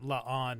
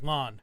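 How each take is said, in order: First: The vowel is drawn out into two beats. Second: The vowel is short, in one quick beat. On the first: The speaker is taking care with the name. "Some people will specifically pronounce it La'an" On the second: The speaker is saying the name casually. "some people will just be like Lon"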